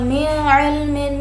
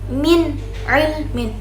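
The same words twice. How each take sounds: First: The n sound is blurred into the next word. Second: The n sound is pronounced clearly and distinctly. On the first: The speaker calls it wrong. "Jadi bukan min ilmin" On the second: The speaker calls it right. "cara membacanya kita dibaca secara jelas"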